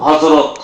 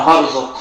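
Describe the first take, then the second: First: Said in the usual way. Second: হরজত with r and j swapped; mispronounced Hazrat. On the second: Retold or imitated. Preacher mimicking a rustic student's slip. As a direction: say হরজত, swapping the sounds of হযরত. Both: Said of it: "হযরত কবার পায় না".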